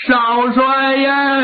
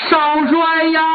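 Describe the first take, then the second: First: Slow, long wailing call; drawn-out wail. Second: Put-on servant wails to the young marshal, crying; mournful cry. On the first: Acted. Servant wails for the young marshal, slow and drawn out. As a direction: stretch the cry out in grief. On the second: A crying call of the name. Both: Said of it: "哭得特别痛".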